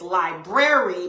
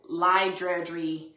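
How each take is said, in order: First: The word is said with standard sounds. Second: The word is said with altered sounds. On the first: The speaker calls it right. "but it's library" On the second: The speaker calls it wrong. "I may say, you know, library"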